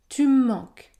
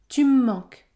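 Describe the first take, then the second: First: Spoken quickly with the e dropped, one long m. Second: Spoken quickly with the e dropped, one long m.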